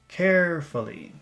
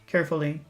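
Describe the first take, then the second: First: The word is said with strong, lengthened emphasis. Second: The word is said plainly, without extra emphasis.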